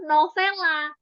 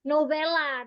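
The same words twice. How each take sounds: First: The middle consonant is an f sound. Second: The middle consonant is a v sound. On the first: The speaker calls it wrong. "Karena udah kebiasaan ke f, jadi novelanya dipanggil novela" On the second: The speaker calls it right. "it's supposed to be nove, novela, novel, v"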